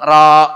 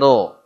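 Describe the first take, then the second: First: The letter is said thin, with an a vowel. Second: The letter is said heavy, with an o-like vowel. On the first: The speaker calls it wrong. "Bukan ra" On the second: The speaker calls it right. "huruf tebal, ingat-ingat ro"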